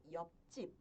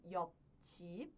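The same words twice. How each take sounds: First: "yopjip" with the second consonant tensed and doubled; double-consonant effect. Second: "yopjip" as two separate, plainly read syllables; unlinked reading. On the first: Teacher showing students the actual pronunciation, tensed consonant. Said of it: "pronuncio como". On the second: Teacher showing students the form to avoid, unlinked syllables. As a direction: say "yopjip" syllable by syllable, without doubling the consonant. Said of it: "Ao invés de pronunciar como". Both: Shown as a demonstration.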